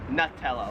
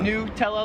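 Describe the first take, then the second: First: The first syllable sounds like 'nut'. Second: The first syllable sounds like 'new'. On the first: "like a nut" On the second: "like it's new"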